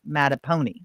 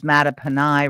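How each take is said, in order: First: The ending sounds like the word pony. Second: The ending does not sound like pony. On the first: The speaker calls it wrong. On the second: The speaker calls it right.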